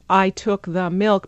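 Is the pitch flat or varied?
flat. It is said flat and evenly, like a robot.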